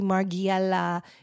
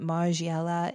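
First: The name is pronounced the Italian way. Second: The name is pronounced the French way. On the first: "I think it would be Margiela if it was Italian" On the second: "but Margiela in French?"

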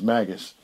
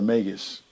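First: The word's first part sounds like 'magic'. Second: The word's first part does not sound like 'magic'. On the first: This is the commonly claimed proper pronunciation. "People say the proper pronunciation of it is Magus, because of magic" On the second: This is a personally preferred pronunciation. "But I prefer Magus"

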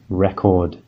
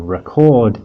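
First: The stress is on the first syllable. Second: The stress is on the second syllable. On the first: It is a noun naming a recorded disc. "that's record with the first syllable stress" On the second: It is a verb meaning to capture audio. "Our verb record"

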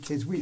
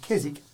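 First: The W in the middle is pronounced. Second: The W in the middle is silent. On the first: "I noticed you then said Keswick" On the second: "I often say Keswick as a silent W"

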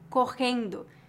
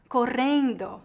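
First: It is said with a general Brazilian accent. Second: It is said with a southern Brazilian accent.

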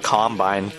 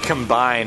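First: The stress is on the first syllable. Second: The stress is on the second syllable. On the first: It names a farm harvesting machine. The speaker calls it wrong. "not combine. ... You're making them sound like farmers" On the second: It means to join things together. The speaker calls it right. "They combine"

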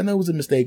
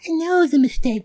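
First: It is said in his own normal voice. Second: It is said imitating the woman's voice.

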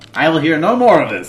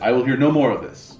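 First: It is said in a higher-pitched voice. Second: It is said in a lower-pitched voice.

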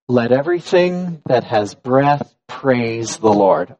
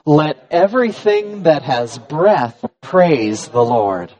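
First: It is said with plain, ordinary energy. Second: It is said with more energy and rejoicing.

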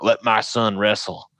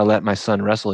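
First: It is spoken in a Southern US accent. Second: It is spoken in a Minnesotan accent. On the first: The speaker calls it wrong. "the Southern accent that I like to use default to" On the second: The speaker calls it right. "they say it more like"

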